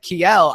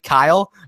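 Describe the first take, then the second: First: The name is given a foreign-sounding pronunciation. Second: The name is given a plain English pronunciation. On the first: The speaker calls it wrong. "I was trying to like pronounce it ethnically" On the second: The speaker calls it right. "it's actually Kyle"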